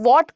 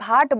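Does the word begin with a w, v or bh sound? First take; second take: w; bh. First: It begins with a rounded w sound. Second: It begins with an aspirated bh sound. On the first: The speaker calls it right. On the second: The speaker calls it wrong.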